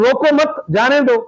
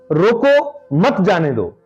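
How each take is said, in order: First: There is a pause right after 'mat'. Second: There is a pause right after 'roko'.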